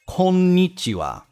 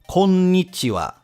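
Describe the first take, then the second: Both takes have the same delivery.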